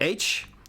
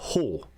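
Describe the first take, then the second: First: The letter is named with its English pronunciation. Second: The letter is named with its Swedish pronunciation.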